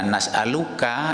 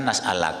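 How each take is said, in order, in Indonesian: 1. Kata itu berakhir dengan suku kata penuh '-uka'. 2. Kata itu berakhir dengan '-ak' yang dipendekkan.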